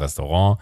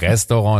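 First: The stress is on the last syllable. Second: The stress is on the first syllable. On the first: The speaker calls it right. "es das heißt Restaurant" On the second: The speaker calls it wrong. "Immer irgendwie auf der ersten Silbe vorne"

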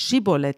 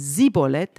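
First: The word begins with a sh sound. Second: The word begins with an s sound. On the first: The speaker belongs to the group guarding the ford. The speaker calls it right. "dann nicht Schibolet sagte" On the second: The speaker is revealed as an enemy outsider. The speaker calls it wrong. "sondern Sibolet, dann haben sie gemerkt, er kann es nicht richtig aussprechen"

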